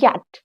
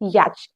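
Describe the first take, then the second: First: The word ends with a 't' sound. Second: The word ends with a 'ch' sound. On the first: The speaker calls it right. "इसमें हमारा सी एच silent होता है" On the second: The speaker calls it wrong. "But ये है गलत।"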